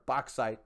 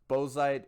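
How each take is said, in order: First: The middle sounds like ks. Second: The middle sounds like a plain z. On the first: The speaker calls it right. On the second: The speaker calls it wrong.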